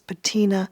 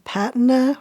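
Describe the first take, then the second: First: It is said with an American pronunciation. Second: It is said with a non-American pronunciation.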